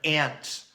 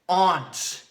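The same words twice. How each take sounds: First: The word is pronounced in a plain, ordinary way. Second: The word is pronounced in a posh, entitled way. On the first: The speaker calls it right. "you just gotta say aunt" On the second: The speaker calls it wrong. "Aunt is such like an entitled way to say it"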